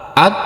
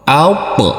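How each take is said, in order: First: The final consonant is cut short without release. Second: The final consonant ends with a bouncing release. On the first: The speaker calls it wrong. "tidak boleh at" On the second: The speaker calls it right. "maka cara bacanya yaitu alp"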